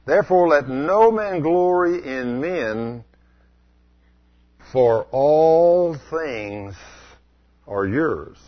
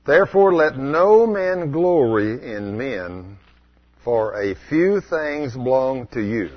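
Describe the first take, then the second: First: ALL things drawn out very slowly; stress on ALL. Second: Slow careful reading of a few things; "a few things" read slowly as if correct; misread verse. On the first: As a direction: lean hard on "all things", stretching "all". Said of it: "different than what's written". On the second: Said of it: "What did he say there". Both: Shown as a demonstration.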